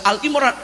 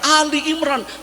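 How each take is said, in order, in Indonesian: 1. Kata pertama dibaca Al pendek. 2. Kata pertama dibaca Ali, dua suku kata. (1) "tidak boleh dibaca Al Imran" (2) "yang benar adalah surah Ali Imran"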